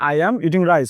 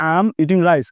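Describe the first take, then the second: First: 'I am' is said as two full words. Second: 'I am' is shortened into one syllable. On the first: This is how British speakers say it. "ব্রিটিশরা সবসময় বলে যে" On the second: This is how American speakers say it. "আমরা এখন থেকে এখানে বলবো"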